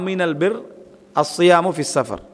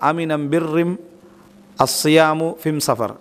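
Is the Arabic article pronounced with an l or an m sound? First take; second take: l sound; m sound. First: The article is pronounced with an l sound. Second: The article is pronounced with an m sound. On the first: "இது" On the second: "அவங்க எப்படி அதை சொல்லுவாங்கன்னா"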